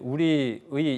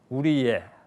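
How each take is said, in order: First: The particle is pronounced 'ui', rising at the end. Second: The particle is pronounced 'e', without rising.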